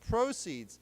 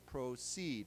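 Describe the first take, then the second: First: The stress is on the first syllable. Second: The stress is on the second syllable. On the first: It is a noun meaning money earned. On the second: It is a verb meaning to go on.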